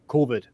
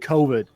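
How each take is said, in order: First: It is said flatter, in a foreign accent. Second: It is said in an American accent. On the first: This is how the speaker's group says it. "we say it more straight" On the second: This is how the other group says it. "You you guys say COVID"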